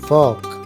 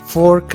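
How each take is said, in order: First: The r sound is left silent. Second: The r sound is clearly pronounced. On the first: The speaker calls it right. "आर के sound को silent करेंगे" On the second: The speaker calls it wrong. "इसे आप फोर्क नहीं बोलेंगे"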